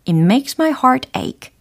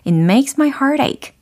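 First: The words are said more slowly and separately. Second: The words are said fast and run together.

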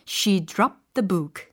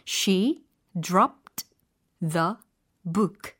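First: The words run together in one linked flow. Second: Each word is pronounced separately and fully. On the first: "근데 이게 연음 처리가 되니까" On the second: "개별적인 단어의 발음은 이래요"

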